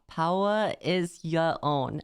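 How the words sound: The R sounds are dropped, almost British-sounding. The speaker calls it right. "like British almost... retracting the R in each word"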